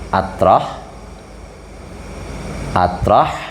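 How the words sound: The word begins with an 'a' sound. This is how Javanese clerics recite it. "ini kalau ulama Jawa nang baca"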